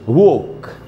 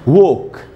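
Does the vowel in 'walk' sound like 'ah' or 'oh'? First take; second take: oh; oh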